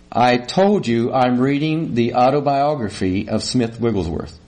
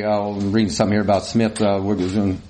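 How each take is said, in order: First: Every word of "autobiography of Smith Wigglesworth" spelled out distinctly; measured, over-clear "I told you", dropping at the end; clearly spoken. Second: Low, hurried mumble; absent-minded mumble behind the paper; mumbled. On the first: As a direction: tell her pointedly, articulating "Smith Wigglesworth". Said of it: "You think that you said". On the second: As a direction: rattle it off low and indistinctly. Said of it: "I just kinda mumbled". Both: Retold or imitated.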